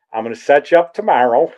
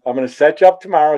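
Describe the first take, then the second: First: Said in the usual way. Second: Fast relished requote. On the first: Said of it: "he tells me, he goes". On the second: Retold or imitated. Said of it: "It was so good".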